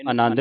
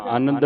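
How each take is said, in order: First: ਆਨੰਦ as "anand", with a full middle "a"; everyday form. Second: ਆਨੰਦ shortened to "anad"; scriptural form. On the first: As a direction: say ਆਨੰਦ in the common "a-nand" form. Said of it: "ਇਹਨੂੰ ਆਨੰਦ ਨਹੀਂ ਪੜਨਾ". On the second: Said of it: "ਕੀ ਪੜਨਾ ਇਹਨੂੰ". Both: Shown as a demonstration.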